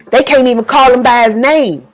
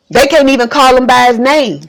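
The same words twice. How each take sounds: The two takes are said the same way.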